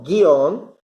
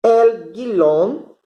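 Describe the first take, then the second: First: "Guión" said cleanly as "gion", no L; the corrected take of "guión"; corrected pronunciation. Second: "El guión" said with a stray L sound, like "gilon"; "guión" slipped into a wrong "gilon"; the mistaken take of "guión"; wrong pronunciation. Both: Shown as a demonstration. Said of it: "Desculpa, guión não".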